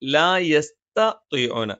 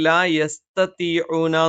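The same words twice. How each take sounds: First: The first t is plain, the second emphatic. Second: Both t sounds are plain and light. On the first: The speaker calls it right. "ആദ്യത്തേത് ത തായും രണ്ടാമത്തേത് ത്വാഉമാണ്" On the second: The speaker calls it wrong. "രണ്ടും ത ആയിട്ട് പറയും"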